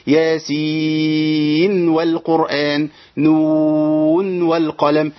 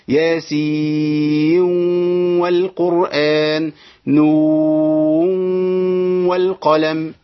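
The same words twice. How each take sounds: First: ياسين and نون chanted slowly with the n sounded clearly before و; clear nun. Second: ياسين والقرآن chanted very slowly, the nun merged into the waw. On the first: Teacher chants the izhar reading. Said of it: "أقول". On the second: Teacher chants the idgham reading of other routes. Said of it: "يبقى ليهم الإدغام". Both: Shown as a demonstration.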